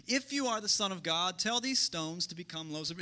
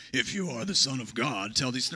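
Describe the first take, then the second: First: Said in the usual way. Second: Deep, menacing devil voice; devil's voice. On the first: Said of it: "it's the devil, so it probably sounded more like". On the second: Shown as a demonstration. Pastor to congregation, reading the devil's line in a deep devil voice. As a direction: growl it low like the devil. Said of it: "so it probably sounded more like".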